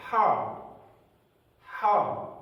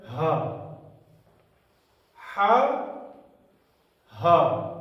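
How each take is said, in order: First: ہا said as a breathy ح from the throat. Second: ہا said as a light ہ from the chest. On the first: Teacher shows students the throat ha, breathy. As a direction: push ہا from the back of the throat. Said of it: "حلق سے آتی ہے". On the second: Teacher shows students the chest ha, light. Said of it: "اس کی آواز ہمیشہ سینے سے آتی ہے". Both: Shown as a demonstration.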